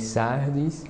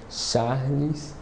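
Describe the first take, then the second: First: The name is said with a tongue-tie lisp. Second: The name is said clearly, without a lisp. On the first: The speaker calls it wrong. "Meu nome mesmo eu falo errado" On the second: The speaker calls it right. "o certo é"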